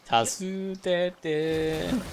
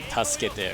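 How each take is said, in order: First: It is said in a playful way. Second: It is said in a plain, serious way.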